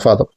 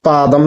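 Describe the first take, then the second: First: The word begins with an aspirated ph sound. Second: The word begins with a plain p sound. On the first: The speaker calls it right. "ശരിക്കും ഫാദമാണ്" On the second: The speaker calls it wrong. "ഇവിടെ ആൾക്കാർ ഈ പാകം, പാദം എന്നൊക്കെ പറയും"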